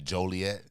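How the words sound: Joliet is said the way Joliet locals say it.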